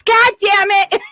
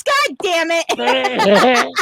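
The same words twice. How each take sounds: First: Higher, snappy "God damn it"; quick mock curse. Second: Very slow, stretched-out "God damn it"; drawn-out mock curse. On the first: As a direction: blurt it out in surprise. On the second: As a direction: drag each word out in dismay. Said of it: "he goes".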